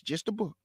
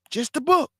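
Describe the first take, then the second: First: Just the book dropped much softer; quiet aside. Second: Just the book lifted high with a rising end; emphatic plea. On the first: Preacher repeating his plea to listeners, much softer. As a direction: murmur Just the book to yourself. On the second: Preacher urging listeners to stick to scripture, high plea. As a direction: push Just the book up, pleading. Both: Real, not acted.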